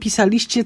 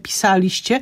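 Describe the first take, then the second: First: The stress is on the second-to-last syllable. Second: The stress is on the third-to-last syllable. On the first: The speaker calls it wrong. "to zgrzyta" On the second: The speaker calls it right. "Mówimy robiliśmy, pisaliście"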